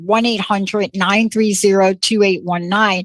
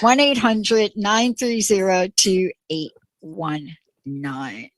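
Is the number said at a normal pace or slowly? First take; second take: normal; slowly. First: The number is said at a normal pace. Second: The number is said slowly.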